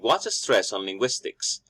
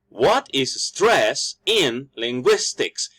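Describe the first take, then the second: First: Only some syllables are stressed, as in normal speech. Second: Every syllable is stressed in an exaggerated way. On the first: The speaker calls it right. "the normal way of speaking" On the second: The speaker calls it wrong. "If I stress every single vowels, it sounds over exaggerated"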